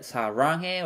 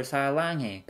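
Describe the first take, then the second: First: 사랑해 with an R sound, "sa-rang-hae". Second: 사랑해 with an L sound, "sa-lang-hae". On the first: Teacher posing a learner's question, 사랑해 with R. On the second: Teacher posing a learner's question, 사랑해 with L. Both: Shown as a demonstration. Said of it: "as L or R".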